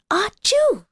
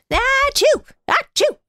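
First: Put-on high, lighter child sneeze; a small boy's sneeze. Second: Two high, loud snowman sneezes. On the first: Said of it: "sneezed the little boy". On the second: Acted. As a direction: sneeze hard twice as the snowman. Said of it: "sneezed the snowman".

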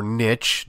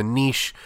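First: Niche rhyming with pitch; niche as NITCH. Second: Niche rhyming with leash; niche as NEESH. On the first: Offering listeners the other side, niche as NITCH. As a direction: say niche with a short i and a ch ending. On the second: Offering listeners one side of the debate, niche as NEESH. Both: Shown as a demonstration. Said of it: "depending on which side you're on".

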